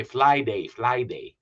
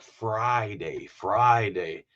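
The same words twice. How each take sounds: First: "Fly day" with L in place of R; mispronounced Friday. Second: Careful "Friday" with a clear R; practised correct Friday. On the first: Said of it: "you can't say Friday". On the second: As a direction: work on the R in "Friday". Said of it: "he started working on his". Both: Acted.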